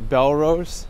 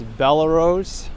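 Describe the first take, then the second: First: The name is said with two syllables, Bel-rose. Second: The name is said with three syllables, Bella-rose. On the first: The speaker calls it wrong. "not Belrose. ... I've heard it pronounced the other way my entire life" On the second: The speaker calls it right. "It's Bellerose, ... maybe the person's name was Bella"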